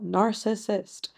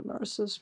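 First: "narcissist" slowly, every syllable sounded; careful pronunciation. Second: "narcissist" rushed, end syllables swallowed; slurred pronunciation. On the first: Shown as a demonstration. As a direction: sound out "narcissist" fully, right to the final t. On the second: Real, not acted. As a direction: run the syllables of "narcissist" together quickly. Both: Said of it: "not really pronouncing that word very well".

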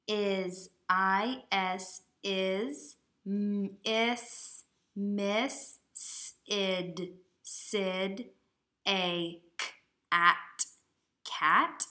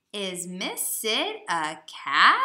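First: Decode it sound by sound, haltingly; sounding out slowly. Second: "cat?" loud and slower, with a big rise on the end; question voice. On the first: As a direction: sound out each word like a beginning reader. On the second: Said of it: "use your question voice". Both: Shown as a demonstration.

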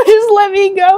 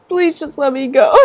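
First: High, loud laughing wail; desperate laughing scream; screamed plea. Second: Said in the usual way. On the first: Real, not acted. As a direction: beg at full voice, half crying. Begging the game, screaming.

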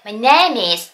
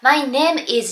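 First: "My name is" run together as "my nay-miz"; linked pronunciation. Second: "My name is" with name and is kept apart; word by word. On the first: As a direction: link the m of name into is in "My name is". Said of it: "ネームとisがくっついて". (「My name is」をマイネイミーズとつなげて発音) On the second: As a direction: say "My name is" as separate words, no linking. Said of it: "じゃなくて". (「My name is」を単語ごとに区切って発音) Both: Shown as a demonstration.

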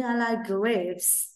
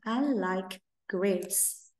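First: I like grapes spoken very slowly, word by word; very slow model sentence. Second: I like grapes very slowly and softer; gentle repeat for kids; very slow soft model. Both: Shown as a demonstration. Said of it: "Ví dụ như".

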